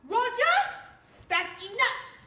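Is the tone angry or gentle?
angry. It is shouted loudly and angrily.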